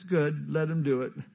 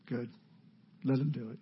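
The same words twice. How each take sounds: First: It is said in a bright, upbeat tone. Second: It is said in a deflated, disappointed tone. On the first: The speaker is happy to let the other man act. "I'm sure he didn't say it like that" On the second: The speaker reluctantly accepts losing the chance. "He's probably just bummed"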